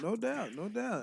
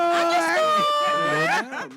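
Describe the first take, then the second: First: Said in the usual way. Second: Big drawn-out shout of no doubt. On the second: Real, not acted. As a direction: belt out the catchphrase. Host's catchphrase shout.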